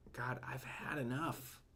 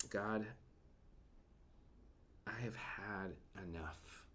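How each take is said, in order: First: Weary lament. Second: Slow, breathless whisper of a worn-out prophet; hushed, slow plea of giving up; despairing whisper. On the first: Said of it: "Did you catch that?". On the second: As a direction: whisper it like you have nothing left. Elijah's despairing prayer retold. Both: Retold or imitated.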